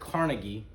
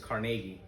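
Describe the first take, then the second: First: The name has the American pronunciation. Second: The name has the Scottish pronunciation. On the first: "in America we pronounce it Carnegie" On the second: "his real name from Scotland is Carnegie"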